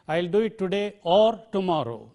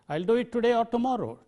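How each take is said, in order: First: The word 'or' is said in its full form. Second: The word 'or' is reduced to a weak vowel. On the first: The speaker calls it wrong. "I don't say" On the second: The speaker calls it right. "Today a, just a weak form"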